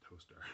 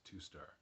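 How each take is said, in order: First: It sounds like the single word 'toaster'. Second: It sounds like the two words 'two star'. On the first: "but you also say Toaster" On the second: "I think it's probably Two Star"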